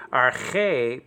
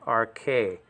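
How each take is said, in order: First: "arche" with a raspy throat ch; guttural chi. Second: "arche" said as ar-KAY, hard k; wrong k pronunciation. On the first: Teacher models Greek arche for students, guttural ch. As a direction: scrape the ch in "arche" like German Bach. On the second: Teacher shows students the lazy mistake, hard k in arche. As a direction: say the ch of "arche" as a plain k. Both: Shown as a demonstration. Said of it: "do not pronounce it like arche".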